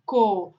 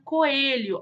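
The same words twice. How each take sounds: First: "co-e-lho" in three separate beats; syllable by syllable. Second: Said in the usual way. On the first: Shown as a demonstration. Teacher separating syllables for children, "co-e-lho" beat by beat. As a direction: pause clearly between each syllable of "co-e-lho". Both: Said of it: "quando ela for separada".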